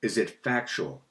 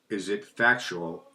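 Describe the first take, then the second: First: Said in the usual way. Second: Slow, deliberate Is it factual, each word drawn out. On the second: Shown as a demonstration. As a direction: ask it slowly and carefully. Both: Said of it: "that was slower than normal".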